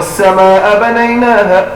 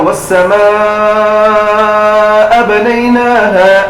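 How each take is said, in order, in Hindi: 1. samaa में स्वर को छोटा रखा जाता है। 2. samaa में स्वर को लंबा खींचा जाता है।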